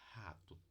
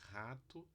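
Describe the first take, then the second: First: The r is made in the throat. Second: The r is made at the soft palate. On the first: "E temos a glotal" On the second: "Um velar"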